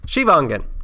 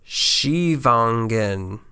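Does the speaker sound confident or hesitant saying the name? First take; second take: confident; hesitant. First: The name is said firmly, with confidence. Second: The name is said hesitantly, without confidence.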